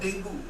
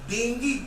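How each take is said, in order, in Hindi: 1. यह शब्द 'oo' ध्वनि से समाप्त होता है। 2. यह शब्द 'ee' ध्वनि से समाप्त होता है। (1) "डेंगू is a wrong pronunciation" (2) "डेंगी होगा"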